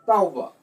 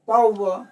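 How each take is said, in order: First: Tauba with the pitch dropping at the end; falling tone on tauba. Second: Tauba with the pitch lifting at the end; rising tone on Tauba. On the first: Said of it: "this is falling tone". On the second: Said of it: "in the case of the rising tone". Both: Shown as a demonstration.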